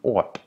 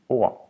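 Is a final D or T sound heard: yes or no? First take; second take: yes; no. First: A final stop consonant is heard. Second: No final stop consonant is heard. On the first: The speaker calls it wrong. "if you were to pronounce the D, you would be" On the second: The speaker calls it right. "you're not saying the D because it's mute, so you're saying"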